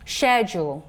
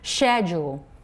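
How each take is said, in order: First: It is said in a British accent. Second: The same.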